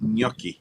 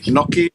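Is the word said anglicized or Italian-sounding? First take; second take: Italian-sounding; anglicized. First: The word is said in an Italian-sounding way. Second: The word is said in an anglicized way. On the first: "or is it gnocchi?" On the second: "Is it knocky"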